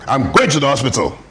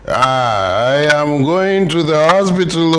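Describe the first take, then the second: First: It is said like an angry man. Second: It is said like a drunk man.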